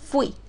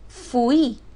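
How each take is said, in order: First: The word is said as one syllable. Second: The word is split into two syllables. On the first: The speaker calls it right. "Existe la palabra fui" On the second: The speaker calls it wrong. "Si yo lo separo, me va a quedar fui. Fui no existe"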